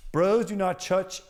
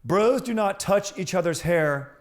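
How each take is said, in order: First: High, slow proclamation with "touch" slurred toward "chutch"; tongue-tied slip. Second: High, slow, louder announcing voice; formal proclamation. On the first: Real, not acted. Host misreading the article aloud, tripping over "touch". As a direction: fumble "touch" so it starts like "ch". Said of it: "I don't know why I can't speak". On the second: Pretend. Host rereading the amended article to listeners, proclaiming. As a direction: declaim it cleanly like a decree.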